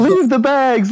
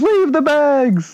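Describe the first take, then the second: First: High, loud shouted order; mock shout. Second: High, loud, very slow drawn-out order; slow mock shout. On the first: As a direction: bark it like a panicked order. Urging him to leave bags. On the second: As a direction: stretch every word out as a loud shout. Repeating the urgent order.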